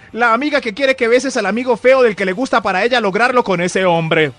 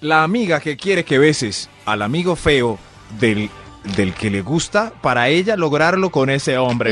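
First: It is said at a faster pace. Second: It is said at a slower pace.

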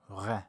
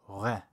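First: The r is made far back in the throat. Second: The same.

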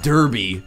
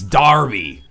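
First: The first syllable sounds like 'der'. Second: The first syllable sounds like 'dar'. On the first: The speaker calls it wrong. "it's not Derby, even though it's spelled Derby" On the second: The speaker calls it right. "It's Darby"

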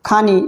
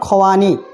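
First: The word is said as khani, without a w. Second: The word is said as khwani, with a w. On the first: The speaker calls it wrong. "খানি যেটা হলো ফার্সি" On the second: The speaker calls it right. "যার সঠিক উচ্চারণ হলো খওয়ানি"

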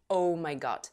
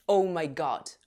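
Both takes have the same delivery.

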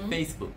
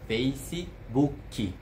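First: The word ends on the k sound. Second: An i vowel follows the final k. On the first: "Não tem nenhuma vogal depois do k" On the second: "os brasileiros falam Facebook"

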